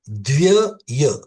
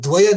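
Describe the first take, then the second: First: The 'y' sound is said twice. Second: The 'y' sound is said only once. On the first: The speaker calls it right. "य अलग से दो बार यह लगेगा।" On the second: The speaker calls it wrong. "सब लोग द्वय कहते हैं। वो शब्द द्वय नहीं है"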